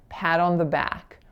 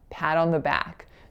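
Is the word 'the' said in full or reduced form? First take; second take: reduced; reduced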